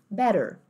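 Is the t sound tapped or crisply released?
tapped. The t is a soft tap, American style. "em inglês americano, você diz better"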